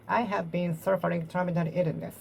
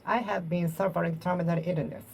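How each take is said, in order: Both takes have the same delivery.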